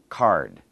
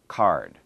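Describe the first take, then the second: First: The word is said with one syllable. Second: The same.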